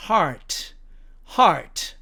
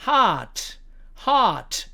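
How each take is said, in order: First: HEART with a sounded r; American heart. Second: HEART as "haht", no r; long ah and no r in HEART; British heart. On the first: Teacher showing American pronunciation, HEART with clear r. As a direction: curl an r before the t in HEART. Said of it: "미국식으로 발음하면". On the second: Teacher showing British pronunciation, HEART without r. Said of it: "영국식으로 발음을 하면". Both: Shown as a demonstration.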